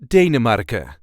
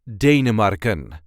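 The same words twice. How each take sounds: First: The final n sound is left off. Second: The final n sound is clearly pronounced. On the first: "And without the N at the end" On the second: "So the full pronunciation"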